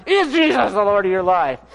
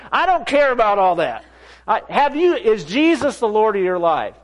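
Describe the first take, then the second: First: Strained mock-furious demand; acting out pent-up frustration; exasperated outburst. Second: Higher, insistent questioning; agitated, raised-pitch challenge; worked-up demand. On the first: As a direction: demand it as if grabbing someone's shirt. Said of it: "That's how I felt inside". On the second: Retold or imitated. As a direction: press the question hard, exasperated. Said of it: "not like I am now".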